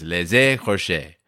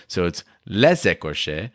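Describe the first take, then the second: First: "les écorchés" with a liaison Z and stressed final E; French pronunciation. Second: Linking the S: "les écorchés" as "lez écorchés"; French pronunciation. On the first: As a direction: stress the last syllable of "écorchés". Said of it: "the accents fall on the A and the A". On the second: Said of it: "you pronounce the S at the end of the first word". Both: Shown as a demonstration.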